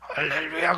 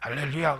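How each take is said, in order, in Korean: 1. 목소리가 완전히 쉬어 있고 심하게 긴장돼 있어요. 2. 목소리가 살짝 거칠고 허스키해요. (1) "저 사람 목소리가 맛이 갔기 때문에" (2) "사자봉에서 기도하네"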